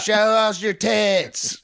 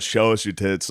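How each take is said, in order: First: High, slow mock yell of a drunk heckler. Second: Said in the usual way. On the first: Imitating a heckler shouting at the comic on stage. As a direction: stretch it out like a rowdy woman shouting from the back. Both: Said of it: "She yelled".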